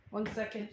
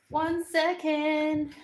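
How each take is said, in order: First: Said in the usual way. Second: Higher, stretched-out words; drawn-out sing-song. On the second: Real, not acted. Asking viewers to wait, in drawn-out sing-song. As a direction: draw it out high and slow.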